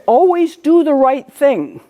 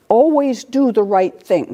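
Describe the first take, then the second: First: Brother's advice. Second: Said in the usual way. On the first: Retold or imitated. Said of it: "my brother would always say". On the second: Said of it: "all right?".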